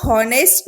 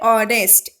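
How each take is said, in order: First: The word starts with an audible h sound. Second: The word starts with a vowel, no h. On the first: The speaker calls it wrong. "इसको हॉनेस्ट नहीं बोलते" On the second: The speaker calls it right. "हम इसे क्या बोलते हैं"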